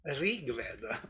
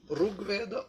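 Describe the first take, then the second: First: The r is followed by an i vowel. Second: The r is followed by a u vowel. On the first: This is how it is said in the north of India. "in the north of India, they pronounce Rig Veda ... with E together" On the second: This is how it is said in Maharashtra. "in Maharashtra, it was cerebral sound, R. And that's next is only U"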